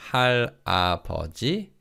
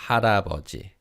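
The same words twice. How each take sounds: First: 할아버지 said with a separate ha, syllables not linked; unlinked syllables. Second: 할아버지 said smoothly as ha-ra-beo-ji, l flowing into a; linked syllables. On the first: Teacher showing the wrong way, 할아버지 with unlinked syllables. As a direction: say 할아버지 as hal-abeoji, the l held apart. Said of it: "So it's not". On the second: Teacher showing the right way, 할아버지 with linked syllables. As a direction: link the first two syllables of 할아버지 into one smooth run. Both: Shown as a demonstration.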